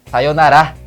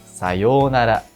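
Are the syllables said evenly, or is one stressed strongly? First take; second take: stressed; even. First: One syllable is stressed strongly. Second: All syllables are said evenly, without stress. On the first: The speaker calls it wrong. "na primeira forma usada no Brasil o som é forte" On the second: The speaker calls it right. "na segunda é neutro"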